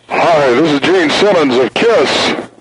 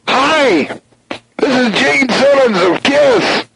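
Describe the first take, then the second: First: It is said at a lower, plainer pitch. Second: It is said faster and higher pitched.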